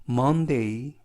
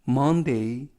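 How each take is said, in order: Both takes have the same delivery.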